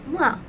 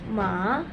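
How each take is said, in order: First: The pitch falls sharply from high to low. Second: The pitch rises from middle to high. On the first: It means scold. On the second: It means hemp.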